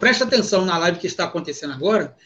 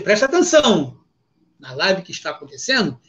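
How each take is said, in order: First: It is said without a pause after atenção. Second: There is a pause after preste atenção.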